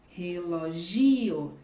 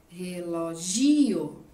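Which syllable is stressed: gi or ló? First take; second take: gi; gi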